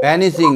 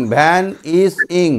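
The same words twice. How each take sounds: First: Said in the usual way. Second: ভ্যান ইস ইং slowly, in three separate beats; syllable by syllable. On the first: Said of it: "এরকম করে উচ্চারণ করলে". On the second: Shown as a demonstration. Teacher showing easy way to pronounce, slow and syllabic. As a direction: leave a gap after ভ্যান and ইস. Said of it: "এরকম করে উচ্চারণ করলে সহজেই".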